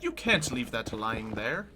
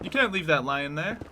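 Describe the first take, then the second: First: The word is fully pronounced with its final g. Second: The final g is dropped, so it sounds like lion. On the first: The pun on the animal is lost. The speaker calls it wrong. "If somebody fully pronounced" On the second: The pun on the animal works. The speaker calls it right. "you gotta make sure you say it with the right voice and accent"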